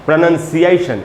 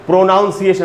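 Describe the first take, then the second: First: The second syllable sounds like 'nun'. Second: The second syllable sounds like 'noun'. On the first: The speaker calls it right. "इसलिए इसको हमको पढ़ना चाहिए प्रोनंसिएशन" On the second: The speaker calls it wrong. "कुछ लोग हम लोग बोलते हैं प्रोनाउंसिएशन, वो तो एकदम ही गलत है"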